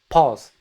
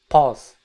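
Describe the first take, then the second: No difference in how they are said.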